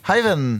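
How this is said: The greeting sounds warm and friendly. The speaker is being kind to the customer. "Den er hyggelig"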